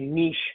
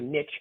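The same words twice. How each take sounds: First: The word is said the current way. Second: The word is said the older way. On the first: This is how people say it today. "In today's world, it's called a niche" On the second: This is how the older generation says it. "if you're my age, it's called a niche"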